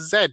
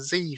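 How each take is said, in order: First: The letter is said in a non-American way. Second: The letter is said the American way.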